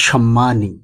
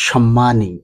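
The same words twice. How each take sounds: No difference in how they are said.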